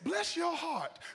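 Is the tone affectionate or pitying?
affectionate. It sounds warm and affectionate.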